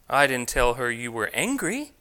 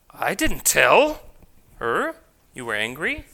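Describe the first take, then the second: First: The stress falls on the word angry. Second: The stress falls on the word tell. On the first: A different feeling was described. "I told her you were feeling something else" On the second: It was implied rather than said outright. "I merely just implied it"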